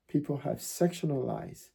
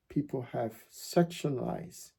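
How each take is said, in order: Both takes have the same delivery.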